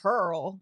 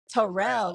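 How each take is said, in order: First: The name is said with one syllable. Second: The name is said with two syllables. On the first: This is how the locals say the name. "not Turl" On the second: This is how the name is spelled. "That joint says Terrell"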